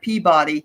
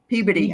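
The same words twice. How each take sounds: First: It is said the way the spelling suggests. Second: It is said the way locals say it. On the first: "it looks like Peabody" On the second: "they s- pronounce it Peabody"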